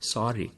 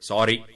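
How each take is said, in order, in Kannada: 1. ಇದು ದುಃಖದಿಂದ ಮತ್ತು ವಿಷಾದದಿಂದ ತುಂಬಿದಂತೆ ಕೇಳಿಸುತ್ತದೆ. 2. ಇದು ಸಹಜವಾಗಿ ಕೇಳಿಸುತ್ತದೆ, ಯಾವುದೇ ವಿಷಾದವಿಲ್ಲದೆ. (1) "ನಿಮಗೆ ಬೇಸರ ಇರುತ್ತೆ, ಬೇಜಾರಿರುತ್ತೆ" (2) "ಸಾರಿ ಅನ್ನೋ ಪದ ಅವರು ಹೇಳಿದ ರೀತಿ ಗಮನಿಸ್ಕೊಳ್ಳಿ"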